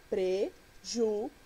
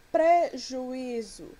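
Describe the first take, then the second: First: "prejuízo" in four separate syllables, PRE, JU, Í, ZO; separação silábica. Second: Said in the usual way. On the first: Shown as a demonstration. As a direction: break "prejuízo" apart with a pause after each syllable. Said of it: "como se divide a palavra prejuízo?". ("prejuízo" pausado, sílaba por sílaba, pre, ju, í, zo)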